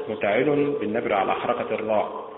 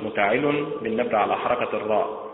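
Both takes have the same delivery.

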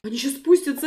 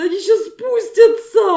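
First: Said in the usual way. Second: Louder, slower panicked warning; alarmed cry. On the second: Pretend. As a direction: call out the danger in alarm.

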